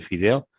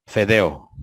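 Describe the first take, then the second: First: Fideo said with i; fideo, standard with i; correct word. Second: Fedeo with e instead of i; fedeo, imitating the wrong e; mispronounced word. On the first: (fideo pronunciado con i) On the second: (fedeo con e en vez de i) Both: Shown as a demonstration. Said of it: "En vez de decir fideo".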